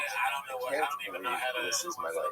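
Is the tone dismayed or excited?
dismayed. It is said in a dismayed, weary tone.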